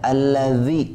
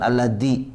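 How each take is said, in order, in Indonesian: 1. Konsonan tengahnya bunyi th lembut. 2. Konsonan tengahnya bunyi d biasa. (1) "pakai zal" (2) "jangan pakai dal"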